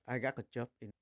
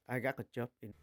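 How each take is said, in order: Both takes have the same delivery.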